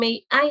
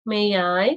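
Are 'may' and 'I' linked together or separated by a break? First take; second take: separated; linked. First: The two words are chopped apart. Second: The two words run smoothly together. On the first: The speaker calls it wrong. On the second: The speaker calls it right.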